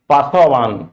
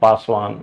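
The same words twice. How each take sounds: First: A short vowel is said after the s. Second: No vowel is said after the s. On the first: The speaker calls it wrong. "अगर अ शामिल होता तो हम इसको ऐसे बोलते" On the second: The speaker calls it right. "But हम बोलते हैं"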